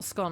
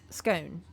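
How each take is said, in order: First: The vowel sounds short, rhyming with gone. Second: The vowel sounds long, rhyming with cone. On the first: "Not scone like gone" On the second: "Like cone"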